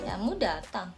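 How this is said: It is said in a sarcastic tone. "kalau nada sinis kayak gini"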